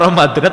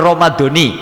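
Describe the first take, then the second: First: The word ends with an 'a' vowel. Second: The word ends with an 'i' vowel. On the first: The word stands apart from the next word. "Kalau Ramadhana terpisah" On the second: The word is joined to the next word in a possessive construction. "sehotnya sehot idofah, jadi nyambung aja"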